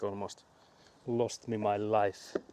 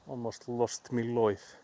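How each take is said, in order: First: It is said in the speaker's usual accent. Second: It is said in an Australian accent.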